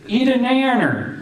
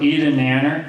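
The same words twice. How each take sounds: First: It is said in a put-on character voice. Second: It is said in his ordinary speaking voice.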